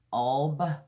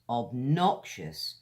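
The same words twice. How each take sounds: First: "obnoxious" split into "ob ... nox ... ious" with long pauses; teacher separating each syllable of "obnoxious". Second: Said in the usual way. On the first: Shown as a demonstration. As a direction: sound out "obnoxious" in three isolated pieces. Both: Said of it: "Another one with three syllables".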